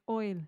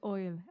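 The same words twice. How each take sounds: First: It is said with a plain, standard vowel. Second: It is said with an Irish vowel, like oil. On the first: "when you say I will" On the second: "oil becomes oil as an O I L"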